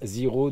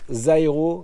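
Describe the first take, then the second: First: The name is said with a French pronunciation. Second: The name is said with an American pronunciation. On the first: The speaker calls it wrong. "je suis le seul tocard à dire Zero" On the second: The speaker calls it right. "ça se prononce Zairo"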